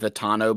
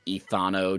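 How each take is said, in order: First: The middle consonant is a plain t sound. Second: The middle consonant is a th sound. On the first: "I just go with Etano" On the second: "would be too much like Thanos"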